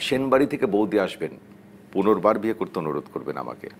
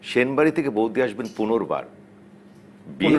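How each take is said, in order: First: The pause comes before 'punorbar'. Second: The pause comes after 'punorbar'.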